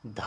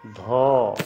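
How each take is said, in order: First: "ध" with an open a, "dha"; Hindi pronunciation. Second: "धो" loud, with a long rounded o; Assamese pronunciation. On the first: Teacher introducing the Hindi letter, aspirated "dha". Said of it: "ध को हम असमिया में". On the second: Teacher answering for students, loud drawn-out Assamese "dho". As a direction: stretch "धो" as aspirated dental "dho". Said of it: "असमिया में क्या बोलेंगे". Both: Shown as a demonstration.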